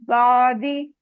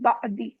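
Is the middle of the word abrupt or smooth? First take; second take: smooth; abrupt. First: The middle sound flows smoothly without a catch. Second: The middle sound breaks off with an abrupt catch. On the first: The speaker calls it right. "झटका नहीं आना चाहिए, आवाज ब्रेक नहीं होनी चाहिए" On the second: The speaker calls it wrong. "बादी ऐसे नहीं"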